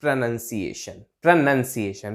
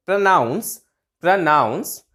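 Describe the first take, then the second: First: Low falling प्रोनंसिएशन with 'nun'; contrast, noun form. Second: प्रोनाउंस with 'noun', rising at the end; contrast, verb form. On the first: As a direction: model प्रोनंसिएशन as pruh-NUN-siation. ('नन' के साथ उतरता सुर) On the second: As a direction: model प्रोनाउंस as pruh-NOUNS, lifting. ('नाउंस' पर चढ़ता सुर) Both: Shown as a demonstration. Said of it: "तो आप फर्क देखिए".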